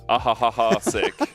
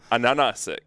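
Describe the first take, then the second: First: The name is said with H sounds. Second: The name is said with N sounds. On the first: The speaker calls it wrong. "for a long time we were calling" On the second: The speaker calls it right. "but it's actually"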